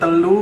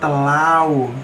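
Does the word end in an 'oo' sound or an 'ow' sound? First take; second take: oo; ow. First: The word ends in a plain 'u' vowel. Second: The word ends in an 'au' diphthong. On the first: This is the standard Javanese form. "telu menjadi telau" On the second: This is the Banyuwangi dialect form. "telu menjadi telau"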